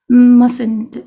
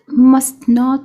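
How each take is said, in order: First: It is contracted, with no t after s. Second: It is said as two full words.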